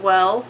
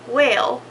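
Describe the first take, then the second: First: The vowel is short, sounding like plain 'well'. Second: The vowel is drawn out, sounding like 'whale'. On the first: "not well" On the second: "like a whale and not well"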